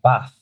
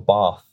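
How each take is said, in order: First: The word is said with a short northern vowel. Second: The word is said with a long southern vowel.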